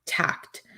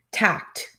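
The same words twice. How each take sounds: First: "tact" whispered, voiceless and soft. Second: Said in the usual way. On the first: Shown as a demonstration. Repeating "tact" to the audience in a whisper. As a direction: breathe the word "tact" out in a whisper.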